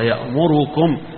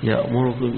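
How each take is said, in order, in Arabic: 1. الضمة بعد الراء تُنطق كاملة. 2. الضمة بعد الراء تُختلس. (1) "الجمهور على ذلك" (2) "يخفف الضمة شوية اللي يسموها الاختلاس"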